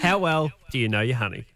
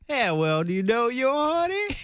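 First: It is said in the speaker's normal voice. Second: It is said in a put-on accent.

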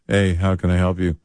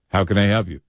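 First: It is said with no enthusiasm. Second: It is said with enthusiasm.

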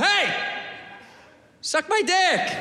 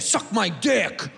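First: It is said in a nice, friendly tone. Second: It is said in a hostile, negative tone.

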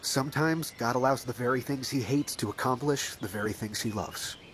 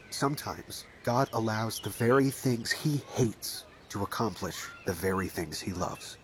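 First: It is said at normal speed. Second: It is said slowly.

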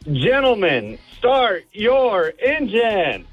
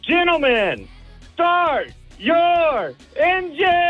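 First: It is said calmly, with little energy. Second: It is said loudly, with pumped-up energy.

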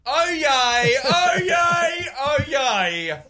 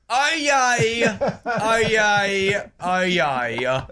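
First: It is said in an excited, lively tone. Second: It is said in a bored, flat tone.

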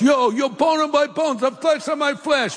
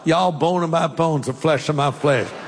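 First: It is said in an East Coast accent. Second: It is said in a Southern accent.

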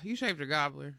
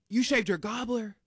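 First: It sounds disappointed, after a sigh. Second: It sounds shocked, after a gasp.

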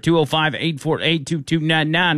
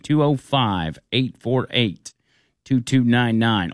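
First: The number is read at normal speed. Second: The number is read slowly.

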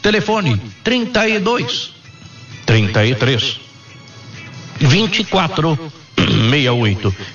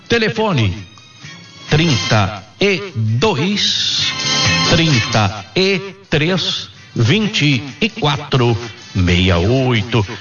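First: The number is said at normal speed. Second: The number is said slowly.

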